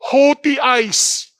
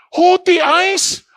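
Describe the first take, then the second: First: Said in the usual way. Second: "Haughty eyes?" asked higher and slower, rising on "haughty"; questioning echo. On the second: Shown as a demonstration. Preacher quizzing the congregation, rising question. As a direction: toss the phrase back as a probing question. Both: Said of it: "Ano ibig sabihin ng haughty eyes?".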